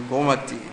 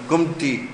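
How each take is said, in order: First: The name is said in three syllables. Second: The name is said in two syllables. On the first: This follows how the name is written. "pronounced it as written" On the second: This is what the name is called locally. "what do they call it?"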